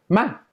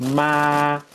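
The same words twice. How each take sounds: First: It is said with the tone meaning anger. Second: It is said with the tone meaning mother. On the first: It expresses anger. "esto quiere decir enojo" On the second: It means mother. "que quiere decir mamá"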